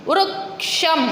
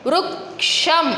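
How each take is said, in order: No difference in how they are said.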